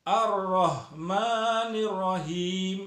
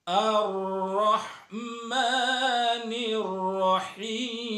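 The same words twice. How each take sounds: First: "Ar-Rahmanir Rahim" with a thick ha besar; wrong heavy ha. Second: "Ar-Rahmanir Rahim" chanted slowly with a light ha kecil; correct small ha. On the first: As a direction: read "Ar-Rahmanir Rahim" with the big throaty ha, the wrong way. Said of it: "Banyak orang membacanya". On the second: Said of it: "bacaan yang benar adalah". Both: Shown as a demonstration.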